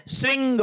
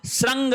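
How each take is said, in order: First: श्रृंग said "sring", with ri; correct pronunciation model. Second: श्रृंग said "srang", with ra; an a vowel after sr in श्रृंग; wrong pronunciation demo. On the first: Teacher correcting for students, श्रृंग as "sring". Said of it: "श्रृंग होता है". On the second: Teacher rejecting the wrong word, श्रृंग as "srang". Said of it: "नहीं होता है". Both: Shown as a demonstration.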